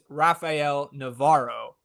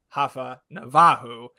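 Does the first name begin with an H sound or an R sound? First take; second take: R sound; H sound. First: The name begins with an English R sound. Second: The name begins with an H-like sound. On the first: "his name is"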